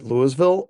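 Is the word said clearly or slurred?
clear. The word is said clearly and normally. "I'd probably still pronounce it Louisville"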